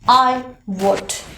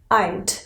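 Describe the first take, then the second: First: Both words are said in full, two syllables. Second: The words are squeezed into one contracted syllable. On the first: The speaker calls it wrong. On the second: The speaker calls it right. "you have to skip the W O U L"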